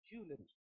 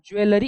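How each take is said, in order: First: The stress is on the first syllable. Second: The stress is not on the first syllable. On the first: The speaker calls it right. "जो ज है ना उस पे stress है" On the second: The speaker calls it wrong. "It is not jewellery"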